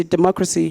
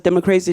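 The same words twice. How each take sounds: First: Said in the usual way. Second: "democracy" said as "demo-crazy". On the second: Shown as a demonstration. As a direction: turn "democracy" into "demo-CRAY-zee". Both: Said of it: "or as [name] calls it".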